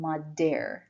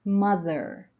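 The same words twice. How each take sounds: First: The middle consonant is a hard d sound. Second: The middle consonant is a voiced th sound. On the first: The speaker calls it wrong. "نمیگیم mother. اصلا صدای د نیست" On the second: The speaker calls it right. "زبون رو پشت دندونای جلو میذاریم و ویبره ایجاد میکنیم"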